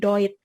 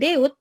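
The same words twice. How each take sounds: First: The vowel sounds like oy, as in boy. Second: The vowel sounds like separate e and u. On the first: The speaker calls it right. "vokal ganda E U itu dibacanya jadi O I" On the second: The speaker calls it wrong. "bukan Deutsch"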